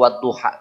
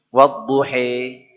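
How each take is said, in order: First: The final vowel is a plain open a sound. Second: The final vowel is tilted toward an e sound. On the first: This is the reading some regions find hard. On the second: This is a regional way of reading.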